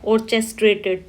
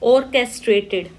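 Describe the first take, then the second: First: The 'ch' is sounded as in 'chess'. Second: The 'ch' is sounded as a hard 'k'. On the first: The speaker calls it wrong. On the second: The speaker calls it right.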